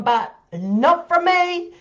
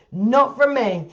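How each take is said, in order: First: High, slow, drawn-out "not from me"; emphatic denial. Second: Said in the usual way. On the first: Real, not acted. Insisting it wasn't her idea.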